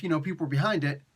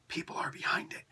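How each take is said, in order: First: Said in the usual way. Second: A quick unvoiced whisper of the correction. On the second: Shown as a demonstration. Vlogger whispering a correction to viewers about the comic. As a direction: slip in the fix under your breath.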